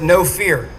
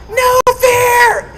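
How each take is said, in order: First: Said in the usual way. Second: Full shout, much higher and louder; yelling. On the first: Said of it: "sticker that said". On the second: Retold or imitated. Crew chief yelling at him from the helicopter, full shout. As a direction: bellow it over the rotor noise. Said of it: "that's what Ned's yelling at me".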